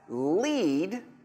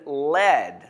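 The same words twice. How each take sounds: First: The vowel is long, as in meet. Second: The vowel is short, as in head. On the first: It means to guide people. "like you are leading people, you are the leader" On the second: It means the heavy metal. "like a lead rock on your head"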